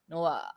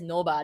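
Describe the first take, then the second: First: The final particle is a bare ah vowel. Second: The final particle begins with a b sound. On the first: It is said the way Singaporeans actually say it. The speaker calls it right. "they like, "No ah, no ah." It's it's it sound it's like "ah,"" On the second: It is read the way it is spelled. The speaker calls it wrong. "they don't s pronounce it as "no ba,""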